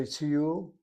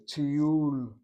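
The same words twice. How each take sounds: First: Tiyul stressed on its first syllable, TI-yul. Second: Tiyul with a long, strong second syllable; stress on second syllable. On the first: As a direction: punch the ti of tiyul, shorten the end. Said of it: "That's emphasizing the first syllable". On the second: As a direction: land firmly on the -yul of tiyul. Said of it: "It's the second syllable". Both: Shown as a demonstration.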